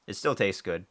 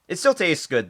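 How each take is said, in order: First: Said in the usual way. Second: High, loud insistence. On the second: Real, not acted. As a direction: blurt it out loudly. Loud take then calm repeat.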